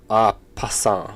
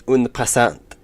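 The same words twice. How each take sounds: First: "ah passant" slow, first syllable as "ah"; "ah passant" spelled out slowly, French style; corrected French pronunciation. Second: "un passant" tried with a French accent; "un passant" said as a French try, "un" nasal; attempted French. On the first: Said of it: "pronounced like". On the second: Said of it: "I was trying my French accent". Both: Shown as a demonstration.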